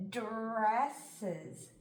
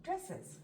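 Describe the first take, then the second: First: "Dresses" drawn out slowly, sound by sound. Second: "dresses" said quickly as one word, higher; blended quickly. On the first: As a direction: stretch "Dresses" into its separate sounds. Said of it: "try sounding it out". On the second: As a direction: pull "dresses" together in one short go. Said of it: "then we'll read it together". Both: Shown as a demonstration.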